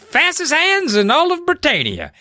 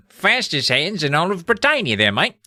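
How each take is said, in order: First: High-pitched put-on British voice; cheeky mock-British brag, pitched way up; British accent. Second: Broad, hammed-up British accent; exaggerated British "mate" voice, raised pitch. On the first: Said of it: "now they have British accents". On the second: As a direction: lean into a matey British accent. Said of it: "Everyone's got British accents".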